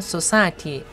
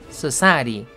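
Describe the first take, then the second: First: The t sound is pronounced fully and clearly. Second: The t sound is weakened and barely heard. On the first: "society 할 거를" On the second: "t를 죽이는 거죠"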